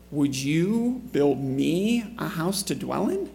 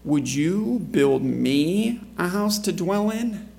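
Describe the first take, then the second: First: Slow, rising on "in"; rising question. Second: Slow, stressed rhetorical question; pointed question. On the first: Preacher rereads the line with a questioning lift. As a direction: let "Would you build me a house to dwell in?" lift at the end. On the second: Preacher reads God's question to David, slow and pointed. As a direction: lean on "you" slowly, almost a rebuke. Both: Shown as a demonstration. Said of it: "You can really read some inflection right there".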